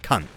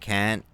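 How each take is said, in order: First: The vowel is a short 'uh' sound. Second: The vowel is an open 'ah' sound. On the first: The speaker calls it right. "it's got to have the un pronunciation for it to work" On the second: The speaker calls it wrong.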